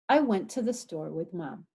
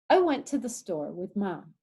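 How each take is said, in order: No difference in how they are said.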